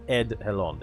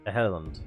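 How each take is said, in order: First: The name is said with a D sound. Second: The name is said without a D sound.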